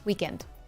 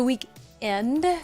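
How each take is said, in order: First: It is said smoothly as one word. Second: It is split into two separate words. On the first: The speaker calls it right. "it's one word" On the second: The speaker calls it wrong. "I had a boss that used to say it like that. ... Like it was two separate words"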